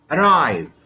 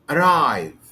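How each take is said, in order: First: The stress is on the second syllable. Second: The stress is on the second syllable.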